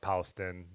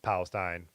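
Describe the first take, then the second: First: The name is said in the Ohio local pronunciation. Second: The name is said in a general pronunciation.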